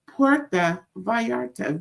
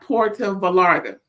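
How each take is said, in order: First: The double L in Vallarta sounds like Y. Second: The double L in Vallarta sounds like L. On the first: The speaker calls it right. "The L L is a Y sound" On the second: The speaker calls it wrong. "Not Puerto Vallarta"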